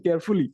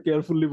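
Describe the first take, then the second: First: কেয়ারফুলি with a plain f and a short single l; the corrected কেয়ারফুলি, smooth f and short l; correct pronunciation. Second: কেয়ারফুলি with a breathy ph and a long doubled l; mock the textbook কেয়ারফুলি, aspirated ph and doubled l; old school pronunciation. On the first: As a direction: say কেয়ারফুলি the way it is said abroad, with a light f and a short l. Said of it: "এটা তো কেয়ারফুলি বলে না". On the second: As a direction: say কেয়ারফুলি as the teachers taught it, with a heavy ph and long l. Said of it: "বিদেশে গিয়ে বুঝছি যে". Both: Shown as a demonstration.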